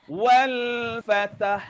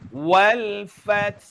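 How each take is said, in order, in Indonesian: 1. Konsonan terakhir diikuti vokal tambahan. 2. Kata berakhir pada konsonan tanpa vokal. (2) "bagi kita orang Malaysia, kita gunalah dalam kiraat Imam Asim"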